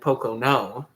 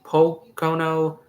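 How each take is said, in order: First: The stress is on the third syllable. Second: The stress is on the first syllable.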